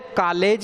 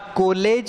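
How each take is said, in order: First: The first vowel is an open 'aa' sound. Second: The first vowel is a rounded 'o' sound. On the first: "न तो कॉलेज है" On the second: "न कॉलेज है"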